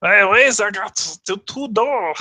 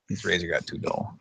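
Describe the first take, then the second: First: High, slow, badly faked German accent; hammed-up German accent attempt; mock German accent. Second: Said in the usual way. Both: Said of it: "I can't do a German thing".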